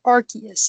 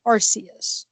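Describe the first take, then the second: First: ARCEUS said with a hard K, "AR-kee-us"; hard-K pronunciation. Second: ARCEUS said with a soft S, "AR-see-us"; soft-C pronunciation. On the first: Shown as a demonstration. Host showing friend's preferred ARCEUS, with a hard K. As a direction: say ARCEUS with a K sound in the middle. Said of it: "weren't too thrilled with the pronunciation". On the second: Retold or imitated. Host quoting the film's ARCEUS, with a soft S. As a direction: say ARCEUS with an S sound in the middle. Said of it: "he said Arceus".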